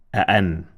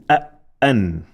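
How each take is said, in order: First: Said in the usual way. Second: "a, an" with a stressed, doubled hamza; "a, an" split by a firm glottal catch; double sound with emphasis. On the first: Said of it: "And now double sound". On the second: Shown as a demonstration. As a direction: stop hard after "a", then release a held "an". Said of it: "double sound with emphasis".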